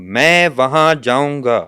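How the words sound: All three words carry stress. It becomes a subtle statement. "और अगर मैं तीनों पे स्ट्रेस दे रहा हूं"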